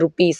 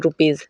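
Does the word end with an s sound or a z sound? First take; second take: s sound; z sound. First: The word ends with an s sound. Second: The word ends with a z sound. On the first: The speaker calls it wrong. "रुपीस नहीं" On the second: The speaker calls it right.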